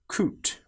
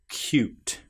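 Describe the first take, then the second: First: The vowel follows the c with no y sound. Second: A y sound comes between the c and vowel. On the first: The speaker calls it wrong. "we don't say coot" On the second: The speaker calls it right. "we say cute"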